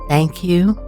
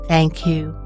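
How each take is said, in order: First: It is spoken aloud in a full voice. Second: It is spoken aloud in a full voice.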